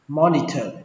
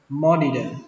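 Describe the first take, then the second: First: The middle consonant is an aspirated th sound. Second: The middle consonant is a d sound. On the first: "các bạn đọc âm này thành âm thờ" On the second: "các bạn đọc âm tờ này thành âm đờ"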